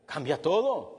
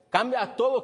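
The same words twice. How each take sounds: First: Said in the usual way. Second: "Cambia todo" said higher and louder; emphatic repeat. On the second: Shown as a demonstration. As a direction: hammer home "Cambia todo" the second time.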